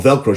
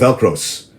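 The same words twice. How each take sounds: First: Said in the usual way. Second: "Velcros" with an added s, as his ma says it; mother's "Velcros". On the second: Retold or imitated. The host quoting his mother's "Velcros" mispronunciation. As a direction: plural "Velcros", stress the s. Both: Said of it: "she calls it Velcros".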